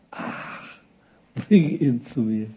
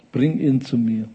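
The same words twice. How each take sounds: First: Long airy sigh, then slow resignation; sigh, then give the order wearily; acted, worn-out patience; weary sigh. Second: Said in the usual way. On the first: Sighs as weary Jesus, repeats command.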